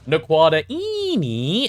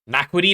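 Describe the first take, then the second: First: The word ends in separate syllables, 'da-eenie'. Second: The word ends in one syllable, 'dine'. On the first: The speaker calls it right. "You've got to pronounce it correctly. It's like uh" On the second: The speaker calls it wrong. "I thought that was the pronunciation. That's how I used to say it"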